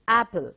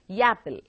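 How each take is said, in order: First: The word starts directly with a vowel. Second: The word starts with an added 'y' sound. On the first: The speaker calls it right. "It's apple" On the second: The speaker calls it wrong. "how is it pronounced by the Telugu speaking people? Yapple"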